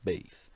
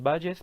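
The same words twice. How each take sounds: First: The name is said with English sounds. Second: The name is read with Spanish sounds. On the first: This is the name's original pronunciation. "pero en verdad su nombre es Thomas Bayes" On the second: This is how Spanish speakers say it. "Nosotros lo pronunciamos Bayes"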